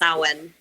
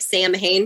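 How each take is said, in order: First: The word is said unlike its spelling. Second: The word is said as it is spelled. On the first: The speaker calls it right. "but it's pronounced Samhain" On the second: The speaker calls it wrong. "It looks like Sam Hain"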